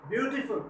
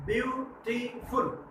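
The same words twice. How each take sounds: First: Said in the usual way. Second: beautiful drawn out slowly, syllable by syllable, softer; beautiful stretched out slow and soft, one syllable at a time; slowly split into syllables. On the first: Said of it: "एक से ज़्यादा syllable है". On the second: Shown as a demonstration. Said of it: "इसमें कितने syllable है?".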